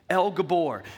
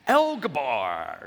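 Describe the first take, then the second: First: It is said in a normal voice. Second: It is said in a pirate voice.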